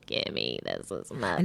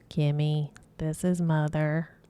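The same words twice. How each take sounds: First: It is said in a deep, raspy voice. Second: It is said in a plain, ordinary voice.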